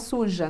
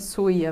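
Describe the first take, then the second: First: The middle consonant is a 'zh' sound. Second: The middle consonant is a 'y' sound. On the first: The speaker calls it wrong. "E não é suja" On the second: The speaker calls it right. "É suia mesmo"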